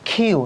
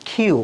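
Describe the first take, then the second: Both takes have the same delivery.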